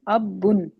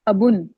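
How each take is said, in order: First: The b sound is doubled and held long. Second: The b sound is single and short. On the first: The speaker calls it wrong. "अब बुन मीन कि आप उसको बा के ऊपर शद साथ पढ़ रही हैं" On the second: The speaker calls it right. "आप इसको पढ़ेंगी अबुन"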